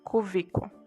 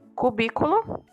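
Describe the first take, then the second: First: The second consonant is a v sound. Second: The second consonant is a b sound. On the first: This is the everyday non-standard form. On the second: This is the standard form.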